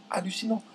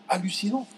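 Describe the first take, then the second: No difference in how they are said.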